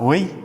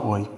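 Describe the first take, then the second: First: Oi lifted a bit higher in pitch; oi with a raised, upbeat tune; brighter oi. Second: Said in the usual way. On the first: Shown as a demonstration. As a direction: make the oi sound friendlier. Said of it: "ou eu falar". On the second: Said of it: "É diferente eu falar".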